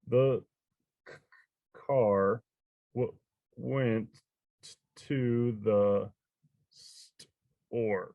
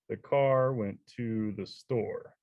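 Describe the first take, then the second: First: It is read haltingly, word by word. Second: It is read smoothly, like natural speech. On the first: The reader is meeting the text for the first time. The speaker calls it wrong. "the first time they read a book, they might sound like this" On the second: The reader now knows the text well. The speaker calls it right. "they just start to sound more natural"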